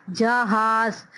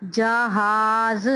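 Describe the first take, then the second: First: Said in the usual way. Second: जहाज slow, ज and हा kept apart; jah-haaz, slowly split; slow model reading. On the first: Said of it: "हा की sound अलग आ रही है". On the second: Shown as a demonstration. Teacher contrasting जहाज with झाड़ू. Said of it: "जा अलग आ रहा है".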